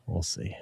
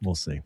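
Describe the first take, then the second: First: Unvoiced whisper to himself. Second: Said in the usual way. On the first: Real, not acted. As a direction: whisper it under the breath. Repeats, second time whispered.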